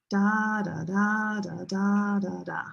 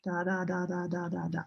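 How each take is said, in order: First: "DAA da DAA da", long and short beats alternating; English stress rhythm. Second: Softer "da, da, da", all equally long; even syllable timing. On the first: Teacher showing music of English, long-short stressed "da" rhythm. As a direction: swing between long strong "da" and short weak "da". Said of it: "This is the music of English". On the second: Teacher showing other languages' rhythm, soft even "da, da". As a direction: tick out each "da" evenly. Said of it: "it's the same". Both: Shown as a demonstration.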